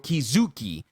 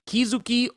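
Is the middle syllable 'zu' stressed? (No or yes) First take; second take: Yes; No. First: The middle syllable zu is stressed. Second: The middle syllable zu is not stressed.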